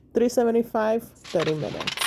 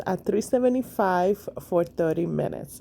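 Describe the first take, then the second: First: "three seventy-five" said higher and punched, "thirty minutes" dropping; stress on three seventy-five. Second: Said in the usual way. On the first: Shown as a demonstration.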